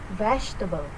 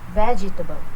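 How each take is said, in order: First: The middle syllable is reduced and short. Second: The middle syllable is fully pronounced. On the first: The speaker calls it right. "This is the correct pronunciation of vegetable" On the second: The speaker calls it wrong. "the incorrect pronunciation of vegetable"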